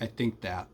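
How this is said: The word 'think' begins with a t sound. "it's kind of a T"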